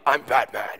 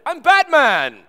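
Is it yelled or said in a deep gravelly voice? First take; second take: deep gravelly; yelled. First: It is said in a deep, gravelly Batman voice. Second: It is yelled as loudly as possible.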